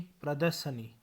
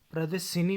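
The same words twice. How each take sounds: First: Said in the usual way. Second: प्रदर्शिनी with i in shi; mispronunciation. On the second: Shown as a demonstration. (प्रदर्शिनी, श पर इ) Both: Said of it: "नहीं".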